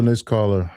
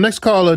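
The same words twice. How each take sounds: First: Said in the usual way. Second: Calling out high and loud, host energy. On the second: Real, not acted. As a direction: announce the next caller loud. Host calling up next caller.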